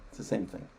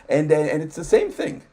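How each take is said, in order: First: A half-voiced afterthought; whispered aside. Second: Said in the usual way. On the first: Real, not acted. Repeating his point to the host as a soft whispered aside. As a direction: whisper it under the breath, much softer.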